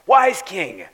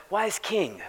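First: Wise king called out louder and grander; the corrected, reverent way to address the king. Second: Said in the usual way. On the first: Retold or imitated. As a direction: hail him properly, with ceremony. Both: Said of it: "They didn't say it that".

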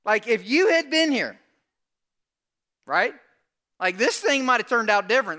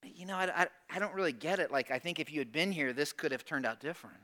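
First: Loud, high, pushy complaint; acted-out accusation, voice raised; aggressive Martha. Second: Soft, hesitant, low-key complaint; subdued, acted-out puzzlement; Mary's different tone. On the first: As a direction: confront him with it, tenacious and insistent. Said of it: "She's aggressive". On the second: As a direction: say it gently, stumbling into the hurt. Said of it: "A little different tone".

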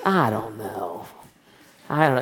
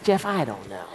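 First: Slow, low, lingering mentor voice; a long, low, lightly voiced old mentor; drawn-out impression of Bob. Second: Low, clipped-off mock mentor reply; quick low shrug of an answer; short, curt Bob. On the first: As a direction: stretch it out the way Bob would. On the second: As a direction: cut it short like Bob does. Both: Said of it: "except he's short".

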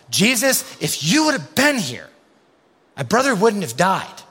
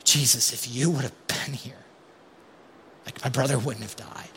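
First: High, loud, accusing plea; demanding, frustrated reproach; confronting Jesus. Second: Hurt, subdued grief. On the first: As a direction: get right in his face with it. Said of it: "We wanna get in Jesus' face". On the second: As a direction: say it falling at his feet. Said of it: "I actually just wanna stay back". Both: Retold or imitated.

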